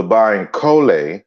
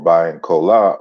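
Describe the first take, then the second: First: Bayankole ending in an "-ay" sound; alternative pronunciation. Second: Bayankola ending in an open "-ah"; alternative pronunciation. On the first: Speaker gives viewers the talk's title, Bayankole ending in "-lay". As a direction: say Bayankole with the final vowel as "lay". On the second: Speaker offers viewers the title's other form, Bayankola ending in "-lah". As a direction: say Bayankola with the final vowel as "lah". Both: Shown as a demonstration. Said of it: "or Bayankola of North America".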